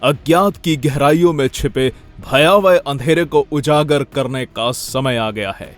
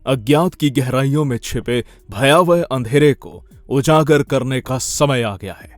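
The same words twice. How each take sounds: First: It is said in a less serious tone. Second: It is said in a more serious tone.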